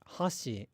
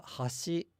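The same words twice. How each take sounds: First: Falling-accent hashi; inverted pitch accent. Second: Rising-accent hashi; pitch accent demo. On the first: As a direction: say hashi with the pitch dropping at the end. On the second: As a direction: say hashi slowly with the pitch lifting at the end. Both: Shown as a demonstration. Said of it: "pitch accent is inverted in Osaka".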